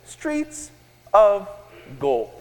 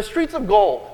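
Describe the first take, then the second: First: Slow, one word at a time; said slowly. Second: Said in the usual way. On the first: Shown as a demonstration. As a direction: leave a clear pause after each word. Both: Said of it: "Say that slowly".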